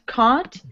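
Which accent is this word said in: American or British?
British. The vowel is a long, open British ah. "it sounds British"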